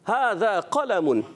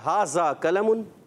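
First: The consonants are pronounced in an Arabic style. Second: The consonants are pronounced in an Urdu style. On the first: The speaker calls it right. "تو کیا ہوگا" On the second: The speaker calls it wrong. "ایسے نہیں، یہ عربی زبان نہیں ہے"

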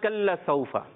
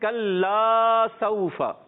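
First: The final vowel of kalla is cut short. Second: The final vowel of kalla is held long. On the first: The speaker calls it wrong. "الف جو ہے کھا جاتے ہیں، یعنی کہ نہیں پڑھتے" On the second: The speaker calls it right. "بلکہ کھینچنا ہے ایک الف"

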